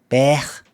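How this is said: It is said in a Liverpool accent. "Unless you're in Liverpool"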